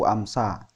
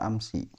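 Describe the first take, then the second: First: The word ends with an a vowel. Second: The word ends with an i vowel. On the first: The speaker calls it wrong. "nggak bisa dibaca amsu amsa" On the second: The speaker calls it right. "selamanya akan dibaca amsi"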